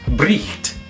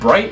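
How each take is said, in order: First: A throaty ch sound comes before the t. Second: It ends with a plain t sound. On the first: This is the older pronunciation. "was actually pronounced bricht" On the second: This is the modern pronunciation. "the word bright"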